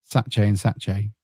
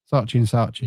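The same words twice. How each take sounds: First: "Saatchi and Saatchi" ending each name in an "ay" sound; unsure attempt at "Saatchi", rhyming its ending with "day"; unsure pronunciation. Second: "Saatchi and Saatchi" ending each name in an "ee" sound; second go at "Saatchi", rhyming its ending with "see"; corrected pronunciation. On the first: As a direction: say "Saatchi" as "SATCH-ay", short first vowel. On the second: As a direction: say "Saatchi" as "SAH-chee", long first vowel. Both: Real, not acted. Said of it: "whatever it's called".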